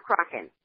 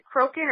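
First: Crokin with an open first vowel, as in "crock"; short O pronunciation. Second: Crokin with a long O, as in "croak"; long O pronunciation. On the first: Interviewer offering another surname reading, Crokin said as CRAH-kin. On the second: Interviewer checking the guest's surname, Crokin said with long O. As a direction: say Crokin as CROH-kin. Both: Shown as a demonstration. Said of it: "make sure I'm pronouncing your name right".

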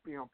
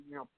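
Both takes have the same delivery.

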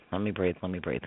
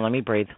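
First: Fading much softer and lower; catching his breath. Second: Said in the usual way. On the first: Real, not acted. Medium asking to catch his breath, fading softer. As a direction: let it die away to almost nothing. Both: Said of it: "Hold on, hold on".

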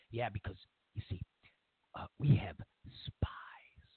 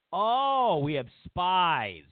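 First: Hushed mock revelation. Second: Mock amazement. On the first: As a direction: whisper the last word like a secret. Mock confidant reveals a secret. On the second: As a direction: echo the secret with sarcastic awe. Mocking echo of the secret.

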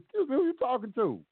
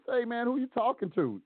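First: High, pointed challenge; defiant comeback. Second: High, challenging retort; defiant comeback. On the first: Firing back at the judge in court. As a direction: say it just like that, daring him. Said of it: "I said it just like that". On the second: Talking back to the judge who hollered at him. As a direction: push back hard at the judge. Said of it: "That's exactly what I said to him". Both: Retold or imitated.

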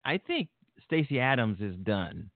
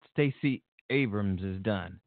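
First: Said in the usual way. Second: Slow, careful "Abrams" after the slip; corrected name. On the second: Real, not acted. Vlogger correcting a misspoken name, slow and careful. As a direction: say "Abrams" deliberately, slowly. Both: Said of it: "I'm sorry, her name's Abrams".

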